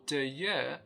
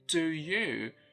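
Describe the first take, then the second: First: Two words are said with weak vowels. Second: Two words are said with full vowels. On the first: "or do you" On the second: "instead of saying do you"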